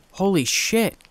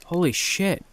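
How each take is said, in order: First: Excited shout. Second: Said in the usual way. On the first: A narrator's reading. Brother realizing his power, shouting with excitement. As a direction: yell it with pure joy. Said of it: "shouted excitedly".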